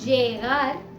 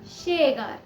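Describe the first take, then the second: First: The word begins with a j sound. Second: The word begins with a sh sound. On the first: This is how some other regions say it. "कुछ जगहों में ज प्रोनाउंस किया जाता है" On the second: This is how still other regions say it. "कुछ जगहों में इसे श भी प्रोनाउंस किया जाता है"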